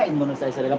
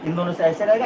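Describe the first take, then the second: First: Soft repeat. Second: Said in the usual way. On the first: Shown as a demonstration.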